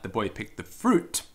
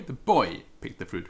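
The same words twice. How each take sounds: First: Fruit punched at the end, rising; stress on FRUIT. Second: Put-on boy hit hard, the rest falling away; stress on BOY. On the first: Teacher translating fructum carpit puer, stress on fruit. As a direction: save the weight for fruit. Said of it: "emphasis on fruit as opposed to". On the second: Teacher translating puer fructum carpit, stress on boy. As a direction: punch the word boy. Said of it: "the emphasis there being on the boy". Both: Shown as a demonstration.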